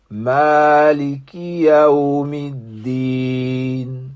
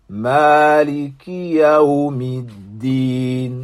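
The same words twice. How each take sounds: The two takes are said the same way.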